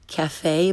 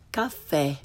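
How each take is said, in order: First: "cafe" with English short a and gliding ay; learner's mispronunciation. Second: "caffè" with open ah and short e; correct Italian pronunciation. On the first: Teacher shows beginners' mistake, English-sounding "cafe". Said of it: "first the way most people". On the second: Teacher corrects beginners, Italian "caffè" with open ah. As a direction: say "caffè" as kahf-FEH. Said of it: "follow it with the correct pronunciation". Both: Shown as a demonstration.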